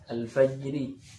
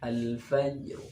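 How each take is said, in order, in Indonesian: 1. Kata ini berakhir dengan bunyi vokal. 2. Kata ini berakhir dengan konsonan mati. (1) "Ini ra-nya kan kasrah" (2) "Cuma dibaca waqaf"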